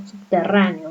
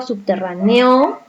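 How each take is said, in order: First: Subterráneo stressed on rrá, falling away after it; correct stress on RRÁ. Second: Subterráneo mis-stressed on the final o, as subterraneó; wrong final stress. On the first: Teacher confirming subterráneo for pupils, stress on rrá. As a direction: put the weight on the rrá of subterráneo. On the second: Teacher testing subterráneo for pupils, stress wrongly on the final o. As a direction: push the stress onto the last o of subterráneo. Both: Shown as a demonstration. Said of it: "Esta es la mayor fuerza de voz".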